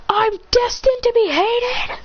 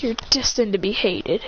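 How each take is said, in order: First: Very high, slow shocked question; shocked disbelief. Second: Said in the usual way. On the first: Acted. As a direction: gasp out the realization. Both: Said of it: "He goes".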